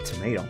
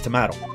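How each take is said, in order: First: It is said with an American pronunciation. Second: It is said with a non-American pronunciation. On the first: "it's an American accent, so yeah, tomato is acceptable" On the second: "But still, it's tomato"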